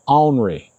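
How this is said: It is said with a rural country pronunciation.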